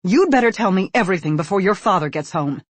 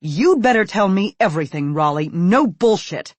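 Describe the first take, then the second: First: A mother's stern, loud warning. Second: Loud, enraged order, slowing on the last words. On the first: Mother warns her son before dad gets home, stern and loud. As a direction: threaten him before his father returns. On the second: Enraged mother demands the whole truth from her son. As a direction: lay down the law, no excuses. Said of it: "with an enraged look". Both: Acted.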